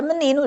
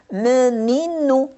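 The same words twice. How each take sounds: First: Said in the usual way. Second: Menino drawn out slowly as me-ni-no; each syllable of menino stretched for pupils to count. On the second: Shown as a demonstration. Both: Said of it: "Como é que nós começamos a contar".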